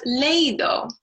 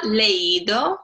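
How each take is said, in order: First: Leído said as LEI-do, stress on the E as one diphthong; wrong stress. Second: Leído said slowly as le-Í-do, I stressed and split from the E. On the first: Teacher demonstrating wrong stress: leído said LEI-do. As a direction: put the weight on the E in leído, LEI-do. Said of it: "it would be pronounced leído, not leído". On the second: Teacher showing correct stress to students: leído as le-Í-do, slow. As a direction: lean on the í in leído, le-Í-do. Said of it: "when we want the stress on the I". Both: Shown as a demonstration.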